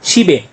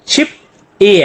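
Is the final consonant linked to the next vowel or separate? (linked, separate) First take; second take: linked; separate. First: The final consonant links into the next vowel. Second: The syllables are kept separate, without linking. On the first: The speaker calls it right. "जब बोलना है ... तो छिबे" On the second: The speaker calls it wrong. "अब छिप ए है"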